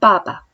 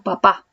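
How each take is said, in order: First: It is said with Chinese neutral and fourth tones. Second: It is said with Spanish word stress. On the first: "ellos dicen papa; es el primero neutro y el segundo es cuarto tono" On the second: "nosotros decimos papá"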